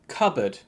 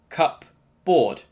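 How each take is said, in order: First: It is said as one word, P silent. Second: It is split into two separately pronounced words. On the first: The speaker calls it right. "It should be pronounced cupboard" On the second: The speaker calls it wrong. "breaking it into two words and pronouncing them separately"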